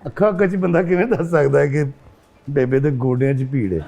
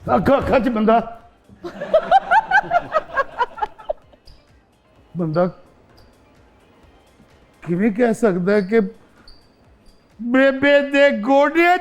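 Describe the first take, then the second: First: It is voiced as a khwaja sara character. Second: It is voiced as a madman.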